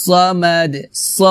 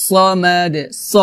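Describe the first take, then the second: No difference in how they are said.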